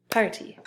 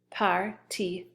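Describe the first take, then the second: First: Said in the usual way. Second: PARTY broken into par, tee; split syllables. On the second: Shown as a demonstration. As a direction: sound out PARTY one syllable at a time, par then tee. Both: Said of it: "so it splits right here".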